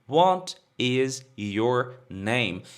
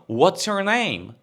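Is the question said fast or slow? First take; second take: slow; fast. First: It is said slowly, with each word separate. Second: It is said quickly, with words run together. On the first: "a pessoa mais devagarzinho" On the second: "a fala rápida... um coelhinho falando"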